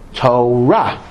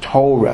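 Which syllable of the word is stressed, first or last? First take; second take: last; first. First: The stress is on the last syllable. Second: The stress is on the first syllable. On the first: This is the Hebrew pronunciation. The speaker calls it right. "in Hebrew most words are accented in the last syllable" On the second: This is the Yiddish pronunciation. The speaker calls it wrong. "The first syllable accent is a Yiddish pronunciation"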